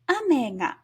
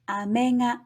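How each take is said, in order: First: It has the pitch pattern of the word rain. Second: It has the pitch pattern of the word candy. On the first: The word means rain. "the word for rain" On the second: The word means candy.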